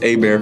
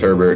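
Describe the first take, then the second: First: The name sounds like 'ay-bear' with no final t. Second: The name sounds like 'herbert' with a final t. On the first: The speaker calls it right. "I said it right because I'm from Louisiana" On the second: The speaker calls it wrong. "for anyone who says Herbert"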